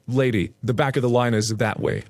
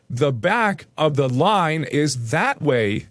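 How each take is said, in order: First: Firm, controlled correction; firm and matter-of-fact. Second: Slow, weighty stress on "back", "line", "that way"; drawn-out, pointed emphasis on "that way"; emphatic repeat. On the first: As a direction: tell her firmly where to go. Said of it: "says in a firm voice". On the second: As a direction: spell out "The back of the line is that way" slowly, word by word. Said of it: "emphasis on those three words". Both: A narrator's reading.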